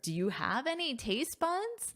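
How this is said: The question is asked in a playful, teasing tone. The speaker is teasing in a lighthearted way. "That sounds more cheeky"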